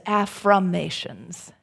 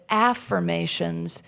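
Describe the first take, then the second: First: "affirmations" said as af-FROM-ations, with FROM in the middle; "affirmations" with the word FROM clearly heard inside; afFROMations. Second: Said in the usual way. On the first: Shown as a demonstration. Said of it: "F R O M". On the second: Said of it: "think of them as affirmations, F R O M".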